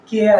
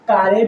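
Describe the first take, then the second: First: The vowel sounds like 'air'. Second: The vowel sounds like 'ar'. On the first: The speaker calls it right. "यह केयर ही है" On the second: The speaker calls it wrong. "यह कार्य गलत होगा"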